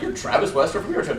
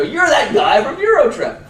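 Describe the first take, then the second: First: Said in the usual way. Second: High, loud, slow fanboy gush; mock fan squeal, high and loud; excited fan. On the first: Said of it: "they never run up and they're like". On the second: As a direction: starstruck fan calling out. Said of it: "They go".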